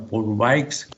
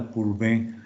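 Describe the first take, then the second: First: The name is said with a Spanish-style reading. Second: The name is said with a French-style ending. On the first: "literalmente como está escrito" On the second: "lo pronuncio de esta manera ... cuál era la pronunciación correcta"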